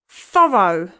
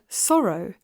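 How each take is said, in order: First: It begins with a lisped th sound. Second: It begins with a clear s sound.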